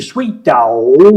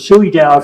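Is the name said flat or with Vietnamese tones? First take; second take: with tones; flat. First: The name is said with its Vietnamese tones. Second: The name is said flat, without the tones.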